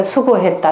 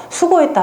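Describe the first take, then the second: First: "수고했다" said low and settled, falling gently; low, gentle praise. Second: "수고했다" lifted high, then falling quickly; bright praise. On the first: A parent praising a child, low and gentle. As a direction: soften and drop the voice on "수고했다". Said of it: "무조건 뭐하면 어떻게". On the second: A parent cheerfully praising a child, high and bright. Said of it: "잘 모르시면요". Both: Shown as a demonstration.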